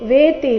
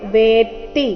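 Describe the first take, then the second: First: The t sound is short and single. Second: The t sound is held and doubled. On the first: The speaker calls it wrong. "ವೇತಿ ಇಲ್ಲ" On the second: The speaker calls it right. "ಇಲ್ಲಿ ಗಮನಿಸಬೇಕು"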